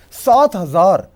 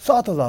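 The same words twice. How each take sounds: First: सात हज़ार punched out louder; loud, disbelieving stress on सात हज़ार; emphatic incredulous repeat. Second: Said in the usual way. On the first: Real, not acted. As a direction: hammer सात हज़ार home. Repeats the wage figure in disbelief.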